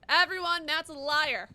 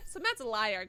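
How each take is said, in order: First: Loud announcement to all; loud accusation. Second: Said in the usual way. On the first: Real, not acted. Player denouncing a viewer to chat, loud accusation. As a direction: call it out loudly to everyone.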